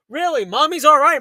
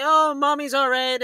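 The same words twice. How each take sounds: First: Higher, louder incredulous echo; sarcastic disbelief. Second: Lightly voiced dismissive grandmother; imitated grandma's reassurance. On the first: Retold or imitated. Challenging grandma's reassurance to the child, loud mock disbelief. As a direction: throw it back as an outraged question. Mocking grandma's claim back. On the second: Imitating grandma reassuring the kid, light mock reassurance. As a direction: brush it off like grandma, drawing out the oh. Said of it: "and the grandma's like".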